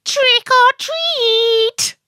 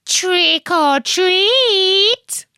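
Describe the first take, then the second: First: Very high, slow, loud sing-song call; little witch calling out. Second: High, slow, rising sing-song call; second little witch. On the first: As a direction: call it out like a tiny trick-or-treater. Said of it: "one of the little witches called out". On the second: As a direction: stretch it out as the other little witch. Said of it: "And her friend said". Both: Acted.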